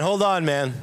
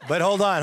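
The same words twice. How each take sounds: First: Loud, higher protest; mock alarm. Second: Loud, higher call of alarm; mock alarm. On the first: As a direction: hold it up, playful and loud. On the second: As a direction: pull up short, loudly. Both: Reacting to wife's suggestion.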